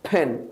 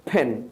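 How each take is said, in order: First: The first sound has a strong, exaggerated puff of air. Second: The same.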